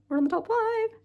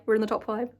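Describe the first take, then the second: First: Much higher, far-off sing-song voice. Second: Said in the usual way. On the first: Shown as a demonstration. Excited vlogger teasing viewers about the top five, high sing-song. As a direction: announce it like a playful little chant.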